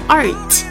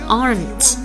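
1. 它发音时没有 n 音。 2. 它发音时有 n 音。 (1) "也不要发art，也要有n 的音" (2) "所以先发r，发完了再发n。"

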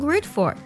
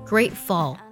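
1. 这个单词的结尾是卷舌音。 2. 这个单词的结尾是清晰的 L 音。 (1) "千万不能给词尾加儿化音，说成grateful 就不对了" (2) "grateful 舌侧音收尾"

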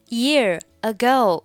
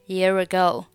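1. 这两个词分开读。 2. 这两个词连在一起读，是连读。

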